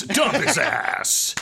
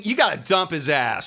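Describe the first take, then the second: First: "Dump his ass" stretched very slowly, each word leaned on; slow drawn-out repeat. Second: Said in the usual way. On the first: Retold or imitated. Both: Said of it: "He's like".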